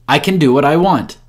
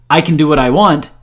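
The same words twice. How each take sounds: Both takes have the same delivery.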